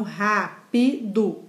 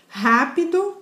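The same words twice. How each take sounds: First: "rápido" split slowly into rá-pi-do; syllable by syllable. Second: Said in the usual way. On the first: Shown as a demonstration. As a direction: count out "rápido" in three beats, rá, pi, do. ("rápido" separado em sílabas: rá-pi-do) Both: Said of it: "se a gente fizer a separação silábica".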